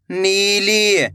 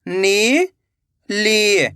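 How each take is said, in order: First: Said in the usual way. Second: "नीली" split into two long syllables. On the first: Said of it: "तो मिलके बन जाएगा". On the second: Shown as a demonstration. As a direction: draw out नी, pause, then ली in "नीली". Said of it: "एक एक अक्षर का उच्चारण". ("नीली" को तोड़कर, नी... ली)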